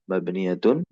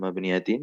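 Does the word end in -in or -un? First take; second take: -un; -in. First: The word ends with the vowel u before n. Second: The word ends with the vowel i before n. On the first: The speaker calls it right. "yang betul adalah mabniyatun" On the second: The speaker calls it wrong. "Ini bukan mabniyatin"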